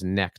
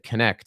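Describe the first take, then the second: First: The K at the start is silent. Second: The K at the start is pronounced. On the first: The speaker calls it right. "I thought the K was silent" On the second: The speaker calls it wrong. "he said Connect"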